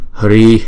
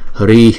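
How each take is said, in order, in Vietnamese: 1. Nó kết thúc chỉ với một hơi thở bật ra nhẹ. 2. Nó kết thúc chỉ với một hơi thở bật ra nhẹ.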